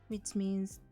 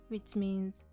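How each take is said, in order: The two takes are said the same way.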